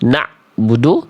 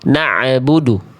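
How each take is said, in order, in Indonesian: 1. Konsonan tengahnya bernada tenggorokan tapi langsung terputus. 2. Konsonan tengahnya punya pantulan gema tambahan. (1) "juga jadi ain tapi dia masih putus" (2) "eh tapi malah nambahin bunyi"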